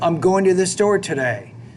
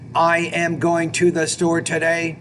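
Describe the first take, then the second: First: The words are blended together smoothly. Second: The words are separated in a choppy way. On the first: The speaker calls it right. "you're not really blending those ideas together" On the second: The speaker calls it wrong. "what's called choppy type speech"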